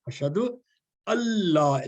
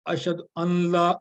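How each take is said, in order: First: The n merges into l without nasal hum. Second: The n is held with a nasal hum. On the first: The speaker calls it right. "That's correct. ... There should be no noon in there" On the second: The speaker calls it wrong. "Just say wrong. ... Just make a ghunna sound"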